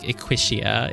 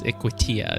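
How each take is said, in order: First: The T is softened, not a hard T sound. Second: The T is said as a hard T sound. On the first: The speaker calls it wrong. "It wouldn't be pronounced like Equitia" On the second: The speaker calls it right. "It's a hard T"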